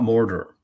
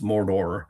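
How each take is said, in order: First: The first syllable is clearly stressed. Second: Both syllables are flat, with rolled Rs. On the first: The speaker calls it wrong. "it's not Mordor" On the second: The speaker calls it right. "the accent is flattened, ... there's no accent, ... he rolls the R's"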